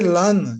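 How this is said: An open 'a' vowel, in the Kham accent. "some say Lan is the come accent"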